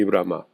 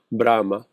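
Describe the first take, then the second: First: Brahma stressed on the last A, bra-MA; stress on final A. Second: Brahma stressed on the first part, BRA-ma; stress on first syllable. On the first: Teacher listing the three Logos, Brahma stressed on final A. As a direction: put the accent on the second syllable of Brahma. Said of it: "Vean el acento en la A". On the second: Teacher listing the three Logos, Brahma stressed on first syllable. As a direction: put the accent on the first A of Brahma. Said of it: "si tiene el acento en la primera parte". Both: Shown as a demonstration.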